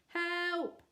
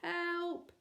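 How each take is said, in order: First: It is said loudly. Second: It is said quietly.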